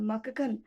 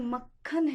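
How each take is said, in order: First: The k is said as a full separate syllable. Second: The k is half, joined directly to kh. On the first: The speaker calls it wrong. "अगर मैं पूरा क बोलती तो वो होता म क ख न" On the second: The speaker calls it right. "ये मक्खन है"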